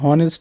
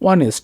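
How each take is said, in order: First: The word starts with an h sound. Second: The word starts with a vowel, no h. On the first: The speaker calls it wrong. "আমরা হনেস্ট বলি না" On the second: The speaker calls it right. "উচ্চারণ কিন্তু হয় নাই"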